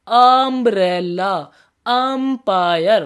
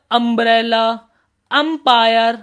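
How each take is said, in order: First: Very slow, louder: umbrella, empire stretched out with the starting vowel sound held; slow demo. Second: Louder example words called out; calls out the example words to the class; first example words. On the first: Teacher demonstrates the vowel sound to students, very slow. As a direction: drag out each word so students hear its first sound. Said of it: "sound को preference दो।". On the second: Teacher calls out examples to students, louder. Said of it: "और यू हमारा आ वाली sound कब निकालता है?". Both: Shown as a demonstration.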